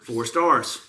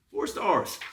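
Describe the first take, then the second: First: Said in the usual way. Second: High, incredulous four stars; disbelieving repeat; mock disbelief. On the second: Repeating review rating.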